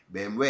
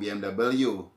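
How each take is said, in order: First: The letters are spelled out in German. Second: The letters are spelled out in a non-German way. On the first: The speaker calls it right. "Ini bahasa Jerman semua" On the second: The speaker calls it wrong. "jangan ngomong B M W"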